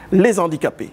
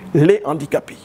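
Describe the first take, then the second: First: A linking z sound joins the two words. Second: No linking sound joins the two words. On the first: The speaker calls it wrong. "Ça ne se dit pas" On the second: The speaker calls it right. "on dit les handicapés"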